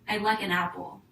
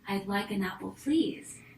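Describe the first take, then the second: First: It is said bluntly, without politeness. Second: It is said nicely and politely.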